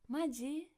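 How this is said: It is said in an excited, lively tone. The speaker is pleasantly surprised. "before we used maji in an excited way"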